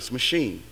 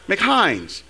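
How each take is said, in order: First: It begins with 'muh', ending with 'sheen'. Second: It begins with 'Mac', rhyming with 'pines'. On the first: The speaker calls it right. "No, it's not. It's machine" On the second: The speaker calls it wrong. "Is M-A-C-H-I-N-E-S is what again? McHines"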